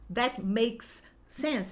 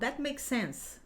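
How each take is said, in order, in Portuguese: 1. O som do S é falado duas vezes, separadamente. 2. Os dois sons do S se juntam em um só.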